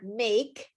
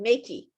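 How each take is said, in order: First: The word ends on a consonant sound. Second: An extra vowel sound is added at the end.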